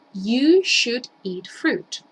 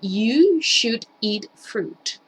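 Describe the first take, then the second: First: You should eat fruit, again very slowly and evenly; slow repeated model. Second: You should eat fruit, said very slowly word by word; slow model sentence. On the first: Teacher repeating the example slowly for the class. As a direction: repeat it slowly so they can follow. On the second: Teacher modelling an example sentence very slowly. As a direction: spell it out slowly for learners. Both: Shown as a demonstration. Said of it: "puedo decirlo de la siguiente manera".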